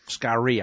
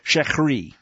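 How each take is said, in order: First: The word begins with an 'sk' sound. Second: The word begins with an 'sh' sound. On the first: The speaker calls it right. "it's Skari. Skari, I think, is how that's pronounced in the Hebrew" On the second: The speaker calls it wrong.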